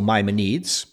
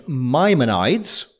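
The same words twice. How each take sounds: First: Maimonides ending in "needs"; alternative pronunciation. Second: Maimonides said slowly, ending like "nides" in "rides"; tentative pronunciation. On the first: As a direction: say Maimonides as MY-muh-needs, unsure. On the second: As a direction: say Maimonides slowly with a long eye in the last syllable. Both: Shown as a demonstration. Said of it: "not sure about that one either".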